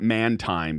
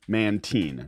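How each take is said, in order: First: The word ends with a 'time' sound. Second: The word ends with a 'teen' sound. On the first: The speaker calls it wrong. "not Mantime, because I pronounced it Mantime for at least like a month" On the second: The speaker calls it right. "is called Mantine"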